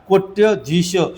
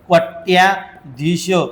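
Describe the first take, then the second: First: No long vowel comes before 'dhish'. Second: A long 'aa' vowel comes before 'dhish'. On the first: The speaker calls it right. "इथं कोट्यधीश बरं का" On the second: The speaker calls it wrong. "बरेच जण म्हणतात कोट्याधीश, तर ते चुकीचं"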